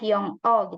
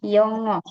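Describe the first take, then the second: First: The syllables are split apart with a break. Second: The syllables are joined smoothly without a break. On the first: The speaker calls it wrong. "tidak dibaca terpisah" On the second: The speaker calls it right. "Bacanya yongo"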